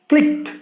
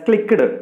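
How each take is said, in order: First: The ending is a plain t sound. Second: The ending is an extra syllable. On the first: The speaker calls it right. "We have to pronounce it as" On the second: The speaker calls it wrong. "We should not pronounce it as"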